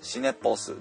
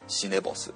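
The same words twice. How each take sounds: First: The two parts are separate, with a voiceless P. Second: The two parts are linked, with a voiced B. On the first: The speaker calls it wrong. "シネボスではなくて" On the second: The speaker calls it right. "そのままつなげてシネボス"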